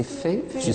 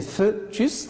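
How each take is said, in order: First: Fœtus as "fé-tus"; correct pronunciation. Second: Fœtus slowly as "feu-tus"; wrong pronunciation. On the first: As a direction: give fœtus a clear "é" in the first syllable. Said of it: "ou bien fœtus". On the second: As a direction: give fœtus a rounded "eu" in the first syllable. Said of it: "Est-ce que c'est fœtus ou bien". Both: Shown as a demonstration.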